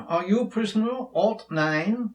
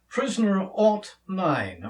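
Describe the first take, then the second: First: Put-on a light British accent, pitched up into a question. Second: Said in the usual way. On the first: Manacled prisoner confronting newest abductee, in a light British accent. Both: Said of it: "gonna have to break out my British accent".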